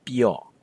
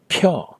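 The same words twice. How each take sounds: First: Pyo with no puff of air on the p; unaspirated p. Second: Pure with a strong puff on the p, higher pitched; exaggerated breathy P in pure; wrong aspirated p. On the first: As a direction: say pyo with the p of spoon, close to b. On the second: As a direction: say pure as p-hyo, p as in pain. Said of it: "it's not pure". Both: Shown as a demonstration.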